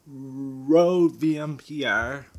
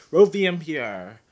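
First: Rode V M P R, each letter slow and separate; slow, spelled out. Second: Said in the usual way. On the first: Real, not acted. Spelling out mic name slowly.

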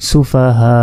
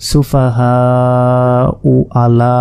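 First: "সুফাহা" with a long "হা", cut off without the final u; stopping pronunciation. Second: "সুফাহা" stretched, then "উ" voiced straight into "আলা"; continuing without stopping. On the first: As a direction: stretch "হা" in "সুফাহা" and stop on a silent hamza. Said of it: "জজম হিসাবে উচ্চারণ করব". ("সুফাহা" লম্বা টেনে জজম দিয়ে থামা) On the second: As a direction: join "সুফাহা উ আলা", sounding the u. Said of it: "আর যদি ওয়াকফ না করি". ("সুফাহা উ আলা" না থেমে পেশসহ পড়া) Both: Shown as a demonstration.

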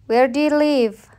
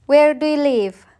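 First: Said in the usual way. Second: Whispered "Where do you live?" with no voice; secretive whispered question. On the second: Shown as a demonstration. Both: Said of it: "Listen and practice".

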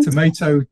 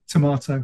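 First: Tomato with 'may', to-MAY-to; American-style pronunciation. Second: Tomato with 'mah', to-MAH-to; British-style pronunciation. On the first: Guest joking about two pronunciations, tomato as to-MAY-to. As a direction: say tomato with an 'ay' in the middle. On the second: Guest joking about two pronunciations, tomato as to-MAH-to. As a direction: say tomato with a broad 'ah' in the middle. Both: Shown as a demonstration.

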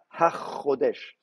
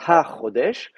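First: Ha Chodesh slowly with the ch doubled, Hach-chodesh; wrong doubled form. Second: Ha Chodesh with a single ch, no doubling after Ha; correct Hebrew. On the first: Teacher showing students the wrong form, slow, ch doubled. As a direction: lean on a geminated ch in Ha Chodesh. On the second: Teacher showing students the right form, ch not doubled. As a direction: say Ha Chodesh without geminating the ch. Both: Shown as a demonstration. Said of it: "on dit pas Ha Chodesh".

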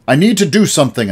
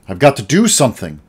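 First: Loud, high, quick outburst; shout. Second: Firm but not yet shouting; holding ground. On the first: The boy shouting at his uncle, frustrated outburst. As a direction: let it burst out of him. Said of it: "I shouted". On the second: The boy standing up to his uncle, firm. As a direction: plant your feet and state it. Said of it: "I said, holding my ground". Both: A narrator's reading.

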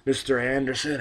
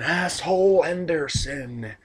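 First: Said in the usual way. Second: Higher, slow drawn out ring name; mock ring announcer. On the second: Shown as a demonstration. Vlogger mocking the wrestler's nickname, announcer drawl. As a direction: stretch it like an announcer calling his name.

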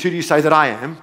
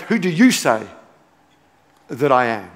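First: "I" lifted near the end of the question; stress on I. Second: "you" punched, then a pause and a lower "that I am"; stress on YOU. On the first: Preacher showing the question's first emphasis, stressing "I". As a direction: lean on the word "I", letting it rise. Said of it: "The first emphasis of the question is". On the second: Preacher showing the emphasis that matters now, stressing "you". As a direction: hit the word "you", then drop away. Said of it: "The bit I'm emphasizing now is". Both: Shown as a demonstration.

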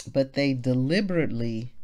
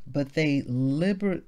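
First: Said in the usual way. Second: "liber-" clipped mid-word as a slip; cut-off misreading. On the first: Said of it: "but, but". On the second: Real, not acted. Reading the verse to the group, trips on "liber-". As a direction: stumbles on "liber-" then stops. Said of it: "but, but they deliberately".

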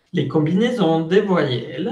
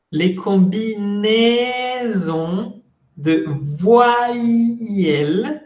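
First: Said in the usual way. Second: Stretched-out French syllables, pitched higher; very slow modelling. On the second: Shown as a demonstration. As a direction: draw every vowel out slowly for learners. Teacher repeats it very slowly.

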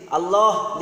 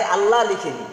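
First: আল্লাহ with rounded o, "Alloh"; correct pronunciation. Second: আল্লাহ loud, with open a ending, "Alla"; rejected variant. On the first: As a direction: end আল্লাহ on "loh". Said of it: "আল্লাহ লিখেছি". (শুদ্ধ উচ্চারণে "আল্লোহ") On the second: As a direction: end আল্লাহ on "laa". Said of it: "বাংলায় আল্লাহ লিখিনি". (বাংলা উচ্চারণে "আল্লা") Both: Shown as a demonstration.

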